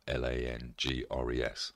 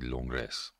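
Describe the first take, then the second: First: The word is said with English-style sounds. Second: The word is said with French-style sounds. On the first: The speaker calls it wrong. "Langres is my pronunciation" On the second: The speaker calls it right. "I'm sure it's actually Langres"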